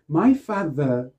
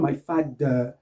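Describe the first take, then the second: First: The th is a buzzing tongue-between-teeth sound. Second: The th is replaced by a d sound. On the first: The speaker calls it right. "ce voiced T H, dans les mots tels que father" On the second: The speaker calls it wrong. "on ne dit pas my father, c'est pas de"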